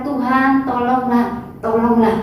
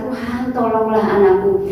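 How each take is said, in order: First: Mock desperate plea, higher; imitated crying out. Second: Said in the usual way. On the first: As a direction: beg like the Canaanite woman calling after Jesus. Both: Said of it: "dia berteriak-teriak".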